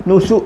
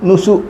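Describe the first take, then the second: No difference in how they are said.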